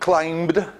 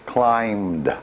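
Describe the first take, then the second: First: The b sound is pronounced in the word. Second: The b sound is silent in the word. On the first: The speaker calls it wrong. "Not climbed" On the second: The speaker calls it right. "but just climbed. So this is, the B is silent in this"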